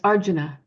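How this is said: It is said with Sanskrit stress and sounds. The speaker calls it right. "but it's Arjuna"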